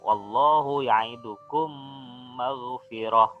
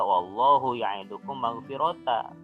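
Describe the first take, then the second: First: The last word ends in a soft h sound. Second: The last word ends in a long a vowel. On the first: The speaker calls it right. "huruf tak marbutoh yang belakang ini diganti dengan huruf ha" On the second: The speaker calls it wrong. "dia tidak dibaca wallahu ya'idukum maghfirata, tidak dibaca seperti itu"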